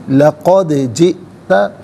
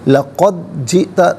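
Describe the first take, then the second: First: The d sound has an echoing bounce. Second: The d sound is flat with no echoing bounce. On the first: The speaker calls it right. "आवाज़ लौटती हुई महसूस होनी चाहिए" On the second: The speaker calls it wrong. "नहीं"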